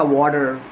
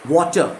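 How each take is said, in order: First: The final r is sounded, American style. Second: The final r is dropped into an h-like ending. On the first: The speaker calls it wrong. "एक American उसको बोलेगा" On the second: The speaker calls it right. "Last last में H sound लग जाता है"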